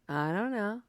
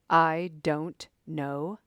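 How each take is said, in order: First: It is said in a snarky, sarcastic tone. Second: It is said in a hard, militant tone. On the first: "Are you saying it in a snarky way?" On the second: "Are you saying it in a militant way?"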